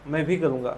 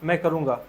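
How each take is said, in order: First: भी in "मैं भी करूँगा" said with weight; stress on भी. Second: Said in the usual way. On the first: Shown as a demonstration. Teacher contrasts light and emphatic sentence. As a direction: lean on भी. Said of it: "थोड़ा जोर देकर कहा गया है". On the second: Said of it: "थोड़ा हल्के में बात को कहा गया है".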